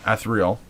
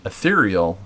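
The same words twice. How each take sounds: First: "ethereal" as ATH-ree-ul; alternative pronunciation. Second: "ethereal" as uh-THEER-ee-ul; first pronunciation variant. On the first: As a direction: open "ethereal" on a short A as in "cat", squeezed to three syllables. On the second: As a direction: say "ethereal" stressed on the second syllable, THEER. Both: Shown as a demonstration. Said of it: "gonna pronounce this differently".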